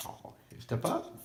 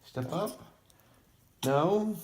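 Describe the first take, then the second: First: High breathy whisper; whispered coaxing. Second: Sing-song high coax. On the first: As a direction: gently coax the bird in a whisper. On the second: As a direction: coax a pet up, high and sweet. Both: Real, not acted. Coaxing bird onto hand.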